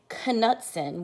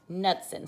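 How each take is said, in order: First: The K at the start is pronounced. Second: The K at the start is silent. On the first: The speaker calls it wrong. "We don't say Knudsen" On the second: The speaker calls it right. "we say Knudsen. So the K is silent"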